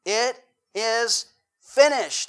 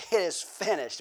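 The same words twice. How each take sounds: First: Slow, loud and higher proclamation of finished; loud cry. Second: Said in the usual way. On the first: Retold or imitated. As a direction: call it out slowly with full voice. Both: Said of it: "with a loud voice".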